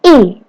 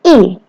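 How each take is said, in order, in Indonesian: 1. Nadanya jatuh tajam dari tinggi ke rendah. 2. Nadanya jatuh tajam dari tinggi ke rendah.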